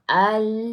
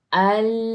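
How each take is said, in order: Both takes have the same delivery.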